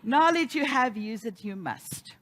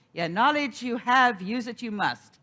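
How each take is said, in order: First: Mild mock Yoda wisdom; Yoda-ish minister. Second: Yoda-ish minister. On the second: Retold or imitated. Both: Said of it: "She would get a little Yoda-ish".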